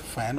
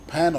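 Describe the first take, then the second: First: The word begins with an f sound. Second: The word begins with a p sound. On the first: The speaker calls it right. "one can pronounce it as a fan also" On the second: The speaker calls it wrong. "one can pronounce it as a pan also"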